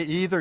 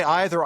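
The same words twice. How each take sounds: First: "either" said EE-ther; first-vowel EE. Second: "either" said EYE-ther; first-vowel EYE. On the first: Contrasting two ways of talking, "either" as EE-ther. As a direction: say "either" with an opening long e, as in see. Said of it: "if you say either". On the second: Contrasting two ways of talking, "either" as EYE-ther. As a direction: say "either" with an opening long i, as in eye. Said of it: "I say either". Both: Shown as a demonstration.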